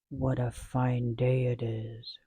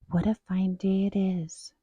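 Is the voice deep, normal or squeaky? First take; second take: deep; normal. First: It is said in a deep growling voice. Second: It is said in an ordinary voice.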